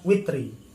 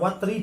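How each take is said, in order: First: The first vowel of the word is 'i'. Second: The first vowel of the word is 'a'. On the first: "bisa dibaca witri" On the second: "Bisa dibaca watri"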